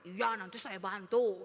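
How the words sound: It is said in an angry tone.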